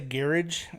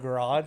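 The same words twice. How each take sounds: First: It is said with the British pronunciation. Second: It is said with the American pronunciation. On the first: "He'll say garage" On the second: "instead of garage"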